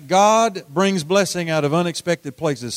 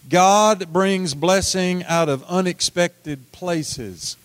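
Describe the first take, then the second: First: Said in the usual way. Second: God brings blessing out of unexpected places said slowly, each word spaced for the crowd; slow call and response. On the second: Shown as a demonstration. Preacher leading the congregation in saying it together, slow. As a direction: lead them word by word. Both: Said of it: "Say that with me".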